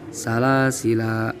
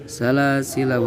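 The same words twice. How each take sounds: First: The final la vowel is held long. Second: The final la vowel is cut short. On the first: The reader stops at this word. "boleh dibaca panjang" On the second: The reader continues without stopping. "harus dibaca pendek"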